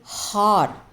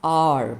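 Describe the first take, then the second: First: The word starts with an audible h sound. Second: The word starts with a vowel, no h sound. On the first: The speaker calls it wrong. "We don't say har" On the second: The speaker calls it right. "but the sound is R"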